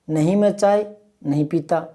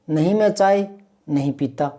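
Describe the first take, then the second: No difference in how they are said.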